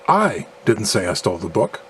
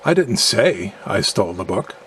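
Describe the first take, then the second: First: The stress falls on the second word I. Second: The stress falls on the word say. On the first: Someone else stole the book. "implying that someone else stole the book" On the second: It was communicated some other way than speaking. "implying that I communicated in a manner other than speaking"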